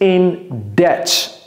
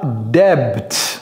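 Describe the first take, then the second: First: The B sound is silent in the word. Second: The B sound is pronounced in the word. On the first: The speaker calls it right. "ne prononcez pas le B s'il vous plaît. Dites in debt" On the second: The speaker calls it wrong. "ce n'est pas debt"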